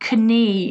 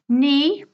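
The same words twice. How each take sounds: First: The K is pronounced in the word. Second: The K is not pronounced in the word. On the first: The speaker calls it wrong. "It's not knee" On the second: The speaker calls it right. "Silent Ks"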